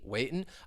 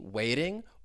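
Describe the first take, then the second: First: The T is a glottal stop. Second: The T is a quick flap. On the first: "or the glottal T" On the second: "the flap T"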